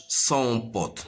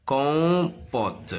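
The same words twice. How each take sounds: First: "son pote" with an s sound at the start; wrong reading. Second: "Compote" with a hard k start, drawn out; stretched first syllable in "Compote", hard c; correct reading. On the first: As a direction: misread compote as "son pote". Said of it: "ما نقراهاش son pote. Non, con". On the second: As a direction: say "Compote" slowly as kon-pot. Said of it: "il me donne le son con". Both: Shown as a demonstration.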